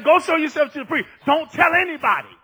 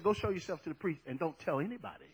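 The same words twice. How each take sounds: First: Loud, raised preacher's quote; emphatic command. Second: Low, quick, soft recitation; quiet quote. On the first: Jesus ordering the healed leper, emphatic command. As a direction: drive each instruction home loudly. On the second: Jesus instructing the healed leper, quiet quote. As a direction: rattle it off softly and low. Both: Retold or imitated.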